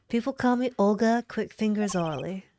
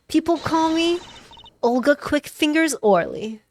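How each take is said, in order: First: Lightly voiced southern card dealer; easy southern accent, near your own pitch. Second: Higher, louder card dealer character; bold, raised-pitch nickname reveal; brash dealer voice. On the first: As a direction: introduce yourself with a southern accent. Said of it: "give her a southern accent". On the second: Acted. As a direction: boast your nickname high and loud. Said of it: "doing the other voice more".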